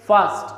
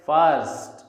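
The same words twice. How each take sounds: First: "first" with the R silent. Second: "first" with the R pronounced; R sounded. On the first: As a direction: say "first" without sounding any R. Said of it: "it will be pronounced as". ("first" में R silent) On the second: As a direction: say "first" with an audible R before the st. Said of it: "It will never be pronounced as". ("first" में R का उच्चारण) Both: Shown as a demonstration.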